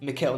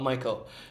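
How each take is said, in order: First: The name is said with German pronunciation. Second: The name is said with English pronunciation. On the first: The speaker calls it right. "you're saying Mikhail" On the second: The speaker calls it wrong. "not Michael"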